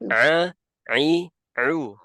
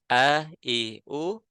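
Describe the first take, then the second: First: Each vowel starts with a tight throat squeeze. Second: Each vowel starts with a plain glottal stop.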